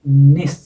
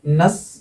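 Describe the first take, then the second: First: The suffix has a short 'i' vowel. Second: The suffix has a weak, reduced vowel. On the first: "नस या निस" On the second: "नस या निस"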